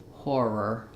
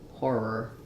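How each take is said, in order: Both takes have the same delivery.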